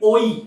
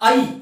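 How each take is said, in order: First: The vowel starts with an 'o' sound. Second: The vowel starts with an 'a' sound. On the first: This is the usual Bengali reading. The speaker calls it wrong. "বাংলায় মূলত আমরা উচ্চারণ করে থাকি ওই" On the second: This is the Sanskrit reading. The speaker calls it right. "এই বর্ণ দুটির উচ্চারণ হবে আই"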